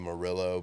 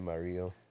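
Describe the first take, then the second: First: The name has an American English pronunciation. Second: The name has a Spanish pronunciation. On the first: This is how people in Oklahoma say it. "Here in Oklahoma, they say" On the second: This is how Spanish speakers say it. "in the Spanish parts of the world, they'd say"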